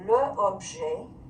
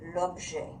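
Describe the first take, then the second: First: The article's vowel is pronounced before the noun. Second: The article's vowel is dropped and linked on. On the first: The speaker calls it wrong. "I don't say le objet" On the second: The speaker calls it right. "Get rid of that E, I put an apostrophe, and I say l'objet"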